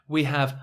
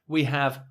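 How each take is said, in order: No difference in how they are said.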